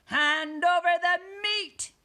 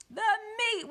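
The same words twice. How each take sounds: First: Loud, high, drawn-out demand; pirate demand. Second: Very high, drawn-out roar; crew roaring. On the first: Captain demands food from crew, loud pirate call. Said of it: "gulped his food and said". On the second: Crew echoes captain at dinner, high roar. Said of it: "we all roared". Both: A narrator's reading.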